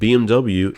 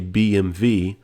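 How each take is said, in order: First: The letters are said the English way. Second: The letters are said the German way.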